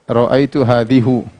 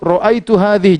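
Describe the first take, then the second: First: The last word ends in a u vowel. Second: The last word ends in an i vowel. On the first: The speaker calls it wrong. "Jangan kita baca" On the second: The speaker calls it right. "selalu kasrah"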